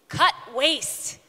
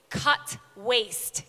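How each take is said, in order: First: It is said forcefully, with conviction. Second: It is said plainly, without much force.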